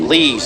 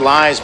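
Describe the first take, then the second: First: The vowel sounds like 'ee', as in 'lees'. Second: The vowel sounds like 'eye', as in 'lies'. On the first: The speaker calls it right. "but pronounced Lees" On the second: The speaker calls it wrong. "excuse me"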